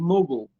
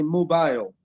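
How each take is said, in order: First: It is said with an American accent. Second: It is said with a British accent. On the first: "in America, maybe they say mobile" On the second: "In the U K, they say mobile"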